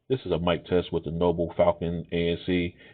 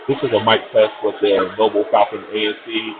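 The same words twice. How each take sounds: First: The voice is heard over fairly quiet background. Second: The voice is heard over loud crowd noise. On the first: "in a semi-quiet location" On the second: "in a crowded location"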